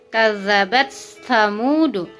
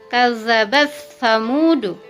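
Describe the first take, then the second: The two takes are said the same way.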